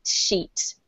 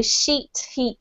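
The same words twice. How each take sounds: First: Sheet whispered, ee drawn out; whispered long E. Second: Sheet, heat with a long ee; long E sound. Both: Shown as a demonstration. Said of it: "really long E sounds".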